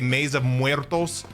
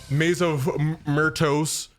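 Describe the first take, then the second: First: The last word starts with a 'mwer' sound. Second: The last word starts with a plain 'mur' sound. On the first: The speaker calls it right. "the one percent of people who say it correctly" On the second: The speaker calls it wrong. "I've heard people say"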